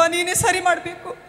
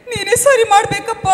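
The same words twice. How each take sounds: First: Said in the usual way. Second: Loud, high plea to God; desperate cry to God. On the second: Acted. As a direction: cry out for help, louder and higher. Mother crying out to God.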